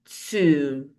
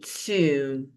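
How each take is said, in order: First: It has a long 'oo' vowel, rhyming with 'womb'. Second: The same.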